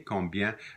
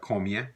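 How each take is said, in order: First: The b sound is clearly pronounced. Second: The b sound is dropped entirely. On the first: "Combien is the same as International French" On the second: "sometimes the B is not pronounced in certain regions. It might just sound like"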